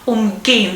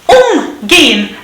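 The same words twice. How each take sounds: First: The stress is on the second syllable. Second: The stress is on the first syllable. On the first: "It's not on the prefix" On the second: "on the prefix"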